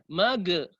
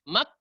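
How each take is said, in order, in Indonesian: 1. Konsonan akhir dipantulkan dengan lepasan. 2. Konsonan akhir berhenti mendadak tanpa gesekan. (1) "terlalu tinggi, dia menjadi qalqalah, itu salah" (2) "langsung mati, habis. Tidak, salah juga"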